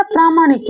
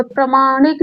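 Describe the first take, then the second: First: "प्रामाणिक" with a long first aa, as praa-; long "praa" opening in "प्रामाणिक"; correct long vowel. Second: "प्रामाणिक" with a short first a, as pra-; short "pra" opening in "प्रामाणिक"; wrong short vowel. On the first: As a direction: say "प्रामाणिक" as PRAA-maa-nik. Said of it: "प्रामाणिक होता है". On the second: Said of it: "प्रामाणिक नहीं होता है". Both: Shown as a demonstration.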